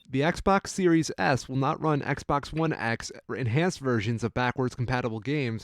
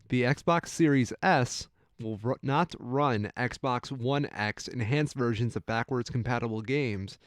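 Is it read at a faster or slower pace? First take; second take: faster; slower. First: It is read at a faster pace. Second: It is read at a slower pace.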